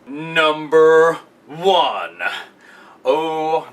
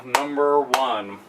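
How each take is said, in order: First: Slow, drawn-out announcer build-up; mock announcer teasing the top spot; dramatic reveal. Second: Slow and softer, almost to himself; a hushed, drawn-out repeat of the reveal; hushed echo. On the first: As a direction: stretch it out like a big countdown reveal. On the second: Pretend. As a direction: let it sink in quietly. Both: Dramatic reveal of favorite wrestler.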